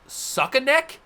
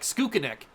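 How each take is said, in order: First: The name starts with a plain 'suck' sound. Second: The name starts with a 'skook' sound. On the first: The speaker calls it wrong. "I thought it was Suckaneck for a second" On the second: The speaker calls it right. "I'm pretty sure it's Skook Skookaneck"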